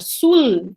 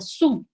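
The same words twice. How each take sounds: First: The word ends with a clear L sound. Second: The word ends with a U-like vowel sound. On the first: "E no lugar de falar sul" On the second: "a gente fala sul"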